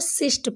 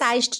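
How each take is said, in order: First: The vowel is a short 'i' sound. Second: The vowel is a long 'eye' sound. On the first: The speaker calls it right. "इसको सिस्ट पढ़ रहे हैं" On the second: The speaker calls it wrong. "साइस्ट नहीं पढ़ रहे"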